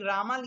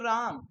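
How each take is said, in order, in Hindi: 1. शब्द के अंत में एक अतिरिक्त अ स्वर होता है। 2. शब्द का अंत म की ध्वनि पर होता है। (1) "R A M A रामा लिखा रहता है" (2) "हम पढ़ेंगे उसको राम"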